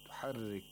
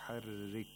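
No difference in how they are said.

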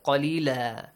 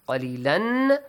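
First: The word ends in a long a vowel. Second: The word ends with an n sound. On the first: The reading stops at this word. "If you stop here, yeah, changes to alif mat" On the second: The reading continues to the next word. "But if you continue reading"

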